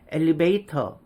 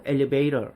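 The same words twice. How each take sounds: First: "엘리베이터" with a clear T in "터". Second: "엘리베이터" said "elevay-rer"; T를 리을로. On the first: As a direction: keep the hard T at the end of "엘리베이터". ("엘리베이터"의 ㅌ을 또렷하게) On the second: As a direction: flap the T of "엘리베이터" into R. ("엘리베이터"를 "엘리베이러"로) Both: Shown as a demonstration. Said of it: "T를 리을로 바꿔버린".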